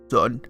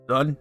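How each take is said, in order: First: It is said in a deeper voice. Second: It is said in a normal voice.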